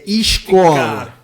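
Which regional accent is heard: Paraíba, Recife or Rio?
Rio. The hushing s is drawn out longer. "E no Rio eles incumpridam mais"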